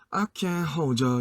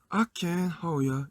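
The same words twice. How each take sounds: First: The d and y merge into a 'jer' sound. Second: The d is dropped, with no 'jer' sound. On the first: The speaker calls it wrong. "이렇게 가면은 저라는 게 발음" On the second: The speaker calls it right. "이렇게 가야 되는데"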